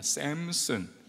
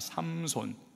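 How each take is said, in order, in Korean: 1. 이름을 미국식 모음으로 발음합니다. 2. 이름을 한국식 모음으로 발음합니다.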